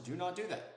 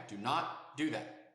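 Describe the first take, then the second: First: Said in the usual way. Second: "Do not do that" slowly, each word weighted; slow, emphatic repeat. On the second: Shown as a demonstration.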